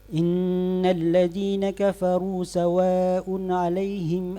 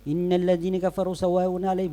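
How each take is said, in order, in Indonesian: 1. Dibaca lebih cepat lagi, harakatnya tetap penuh. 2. Dibaca terburu-buru sampai harakatnya jadi pendek. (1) "atau mungkin bisa lebih cepat lagi" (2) "Berarti kita sudah kurangi itu"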